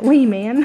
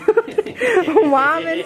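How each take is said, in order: First: The first syllable sounds like 'wee'. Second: The first syllable sounds like 'why'. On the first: The speaker calls it wrong. "I was calling it Wee Man" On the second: The speaker calls it right. "y'all taught me the correct way to say that"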